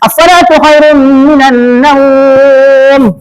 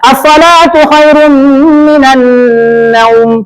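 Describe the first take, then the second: First: The vowel in naum is held six beats. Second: The vowel in naum is kept short. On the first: "Enam boleh" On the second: "Boleh dipendekkan"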